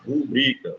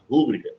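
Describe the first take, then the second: First: The stress is on the second syllable. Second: The stress is on the first syllable. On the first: The speaker calls it right. "o certo é eu falar rubrica" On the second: The speaker calls it wrong. "também é errado falar rúbrica"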